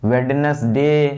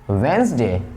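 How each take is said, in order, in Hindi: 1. 'd' की आवाज़ सुनाई देती है, और एक अतिरिक्त सिलेबल भी। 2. बीच में 'd' की आवाज़ नहीं है; सिर्फ दो सिलेबल हैं। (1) "ऐसे नहीं पढ़ते" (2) "डी प्रोनाउंसिएशन इसका नहीं होगा"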